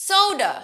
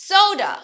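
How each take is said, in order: The two takes are said the same way.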